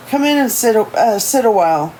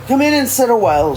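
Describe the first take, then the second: First: Put-on high, lively old lady; old woman voice. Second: Put-on high, brisk old lady voice; old woman voice. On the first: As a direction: welcome them in as a chirpy old woman. Old lady voice, first take. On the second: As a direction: invite them in quickly like a chirpy grandma. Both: A narrator's reading.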